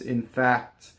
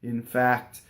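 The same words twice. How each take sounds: Both takes have the same delivery.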